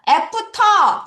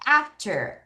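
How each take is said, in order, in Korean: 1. 평평한 한국식 음절로 발음합니다. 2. 영어식 t와 말린 r로 발음합니다. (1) "애프터라는 발음은 잘못됐지" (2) "T 발음할 때 혀로 천장을 치라니까"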